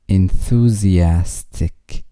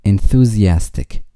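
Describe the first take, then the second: First: Enthusiastic said slowly, syllable by syllable; slow model. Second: Said in the usual way. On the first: Shown as a demonstration. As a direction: stretch out each syllable of Enthusiastic for the learner. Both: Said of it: "vocabulary drill, word repeated".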